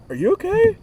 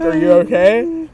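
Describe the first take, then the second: First: Much higher, gently worried mom voice; a mother gently probing her son; concerned mom. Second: Mom asking with deep concern, pitch raised; a worried mother checking on her son; mom's concern. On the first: Imitating mom, high and concerned. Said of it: "but, like, a deep concern". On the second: Imitating mom asking with concern. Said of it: "she asked with, like, an attitude ... a deep concern". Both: Retold or imitated.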